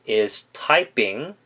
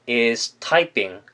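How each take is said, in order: No difference in how they are said.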